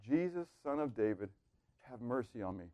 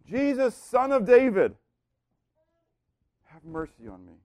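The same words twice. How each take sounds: First: Soft, hushed begging plea; pleading, begging. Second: Crying out for mercy. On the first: Blind beggar begging Jesus, soft pleading. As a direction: beg quietly for mercy. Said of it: "Bartimaeus comes pleading, begging". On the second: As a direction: call out to Jesus, then drop away. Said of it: "he cries out to Jesus, and he cries out for mercy". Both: Retold or imitated.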